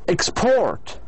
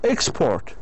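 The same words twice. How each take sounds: First: The stress is on the second syllable. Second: The stress is on the first syllable. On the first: The word is used as a verb. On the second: The word is used as a noun.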